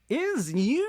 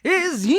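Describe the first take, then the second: First: It is said more quietly, with less energy. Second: It is said louder, with more energy.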